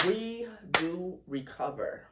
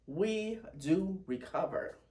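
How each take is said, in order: First: Slow, tearful declaration; slow and teary, firm. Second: Slow, tearful repeat; slow and teary, steady. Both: Real, not acted. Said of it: "A little teary".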